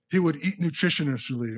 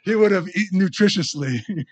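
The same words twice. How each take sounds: First: Stumbling over "nutritiously"; mispronounced punchline. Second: Loud, higher retry of "nutritiously", every syllable sounded; careful second attempt. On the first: Retold or imitated. Preacher retelling a boy's punchline, tongue tangled on "nutritiously". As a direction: trip on the syllables of "nutritiously". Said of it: "I can't even say the word". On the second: Preacher retrying a boy's punchline, loudly getting through "nutritiously". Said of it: "laughing at my mispronunciation or the joke".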